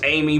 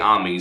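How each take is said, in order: First: The name is said with English pronunciation. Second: The name is said with Japanese pronunciation. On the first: "Now I know it's Amy" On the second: "in Japan they say Ami"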